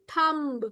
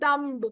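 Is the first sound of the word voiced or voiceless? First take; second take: voiceless; voiced. First: The first sound is a voiceless, soft th. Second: The first sound is a voiced, hard th. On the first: The speaker calls it right. "we say thumb. Soft th" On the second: The speaker calls it wrong. "we don't say dumb"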